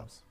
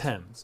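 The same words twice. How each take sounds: First: It begins with a TH sound. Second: It begins with a plain T sound. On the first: The speaker calls it wrong. "not Thames" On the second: The speaker calls it right. "Thames, not"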